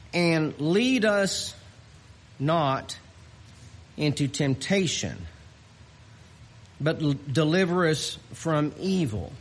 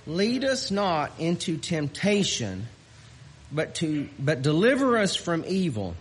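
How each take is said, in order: First: Scripture reading. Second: Said in the usual way. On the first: Acted. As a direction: read the verse with reverence. Reads scripture slowly.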